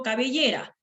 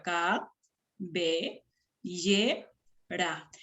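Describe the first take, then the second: First: Said in the usual way. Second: "cabellera" in four separate syllables with pauses; quiet, lower, segmented syllables; split into syllables. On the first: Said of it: "si yo digo cabellera". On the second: Shown as a demonstration. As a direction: say ca, be, lle, ra one at a time. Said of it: "Si la veo cabellera".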